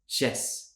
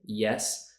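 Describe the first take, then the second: First: It starts with an SH sound. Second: It starts with a Y sound. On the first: The speaker calls it wrong. "maybe it's more of a sh sound" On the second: The speaker calls it right. "instead of saying yes"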